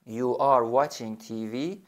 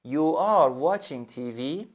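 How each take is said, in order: First: "You are watching T V" slow, rising again at the end; question tune. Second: "You are watching T V" slow, with a rising question tune at the end. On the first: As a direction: ask it, end going up. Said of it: "لحن جملت هم سوالی". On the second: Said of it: "باز علامت سوال، لحن جملت هم سوالی". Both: Shown as a demonstration. Teacher to student, rising question tune.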